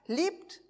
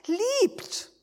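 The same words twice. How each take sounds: First: Said in the usual way. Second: Liebt rung out high and strong as a command; liebt, punched high and loud; emphatic command. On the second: Shown as a demonstration. Preacher commanding the church to love, liebt stressed high. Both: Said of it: "Aber es heißt".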